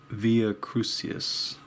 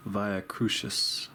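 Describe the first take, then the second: First: "Via" as VEE-uh, "Crucius" as KROO-see-us; slow attempt at "Via Crucius", with an S sound in KROO-see-us; unsure pronunciation. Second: "Via" as VYE-uh, "Crucius" as KROO-shus; slow attempt at "Via Crucius", with an SH sound in KROO-shus; unsure pronunciation. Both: Shown as a demonstration. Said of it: "I don't know how to say that".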